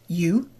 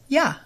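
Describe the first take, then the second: First: The word is said in its full form. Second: The word is said in a reduced form.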